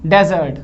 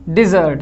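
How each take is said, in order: First: डेजर्ट said 'dezərt', with an e first; dessert pronunciation. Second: डेजर्ट said 'dizərt', with short i first; desert pronunciation. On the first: Teacher reading the word for sweets, 'dezərt' pronunciation. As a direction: open डेजर्ट on an open 'de' sound. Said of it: "ये मिठाइयाँ, मिठाइयाँ हो गया". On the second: Teacher reading the word for sandy land, 'dizərt' pronunciation. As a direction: open डेजर्ट on a short 'di' sound. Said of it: "इसका मतलब होता है रेगिस्तान". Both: Shown as a demonstration.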